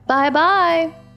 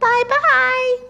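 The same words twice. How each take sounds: First: It is said in a medium-pitched voice. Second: It is said in a high, squeaky voice.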